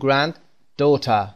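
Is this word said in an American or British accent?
British. It is said in a British accent. "به بریتیش"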